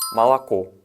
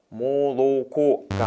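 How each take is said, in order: First: The first two vowels sound like 'a'. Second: The first two vowels sound like full 'o'. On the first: The speaker calls it right. "정확한 러시아어 발음은 말라코" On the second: The speaker calls it wrong. "모로코가 아니라"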